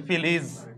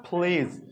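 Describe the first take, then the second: First: "প্লিজ" said as "পিলিজ" with an extra vowel before the L; mock the learner's split "প্লিজ"; wrong way imitated. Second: "প্লিজ" with P and L joined, no extra vowel; correct pronunciation. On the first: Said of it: "ঠিক এভাবে বলেন". ("প্লিজ" ভুলভাবে, মাঝে স্বরধ্বনি ঢুকিয়ে) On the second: Shown as a demonstration. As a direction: demo a clean "প্লিজ" cluster. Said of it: "একইভাবে দেখেন". ("প্লিজ" সঠিকভাবে, প ও ল একসাথে)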